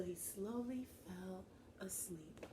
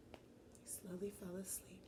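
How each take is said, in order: First: Plain. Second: Sleepy hushed whisper. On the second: Teacher echoing Lucas falling asleep, whispered. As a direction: lull it out in a whisper. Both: Shown as a demonstration. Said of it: "repeated as whisper".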